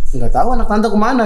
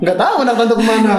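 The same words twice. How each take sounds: First: Playful quote through a laugh; half-laughing mock answer; jokingly answering while laughing; laughing joke reply. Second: Lightly laughing mock answer; a giggly playful echo; laughing joke reply. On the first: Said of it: "Terus gue bilang". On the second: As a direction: repeat it still giggling. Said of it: "kan gitu".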